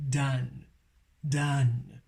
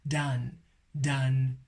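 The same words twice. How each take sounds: The two takes are said the same way.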